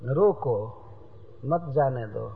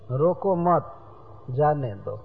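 First: The pause comes right after रोको. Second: The pause comes right after मत.

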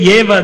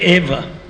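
First: The word begins with a 'ye' sound. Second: The word begins with a plain 'e' sound. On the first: This is how it is said in Tamil Nadu. The speaker calls it wrong. "They say Yeva" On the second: This is the proper Sanskrit pronunciation. The speaker calls it right. "they don't say Eva in Tamil Nadu"

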